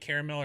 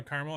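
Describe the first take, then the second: First: "caramel" in three syllables, CARE-uh-mel; caramel, full pronunciation. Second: "caramel" in two syllables, CAR-mul; caramel, short pronunciation. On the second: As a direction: say "caramel" as carmel. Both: Shown as a demonstration. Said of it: "You know, you can do".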